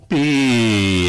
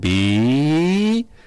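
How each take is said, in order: First: The pitch falls through the sound. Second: The pitch rises through the sound. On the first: It pictures a straight line going down. "es una línea recta que va bajando" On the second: It pictures a straight line going up. "imaginamos una línea recta que va ascendiendo"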